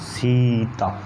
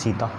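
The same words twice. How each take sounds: First: The vowel is drawn out for a long time. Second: The vowel is held for a normal length.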